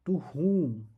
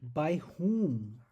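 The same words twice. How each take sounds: First: "to whom" with whom punched and breathy, falling; stress on whom. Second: "by whom" with both words firm and louder; stress on by whom. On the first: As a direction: lean hard on "whom" in "to whom". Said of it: "So here the emphasis is on". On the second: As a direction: hit "by" and "whom" in "by whom" evenly. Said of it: "Here the emphasis is on". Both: Shown as a demonstration.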